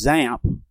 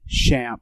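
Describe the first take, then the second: First: The X sounds like the start of xylophone. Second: The X does not sound like xylophone. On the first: This is a common way people say it. "pronouncing X as in xylophone" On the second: This is how the makers say it. "the maintainers pronounce it XAMPP"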